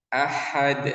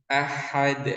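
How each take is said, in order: The two takes are said the same way.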